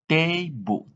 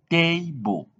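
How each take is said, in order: Both takes have the same delivery.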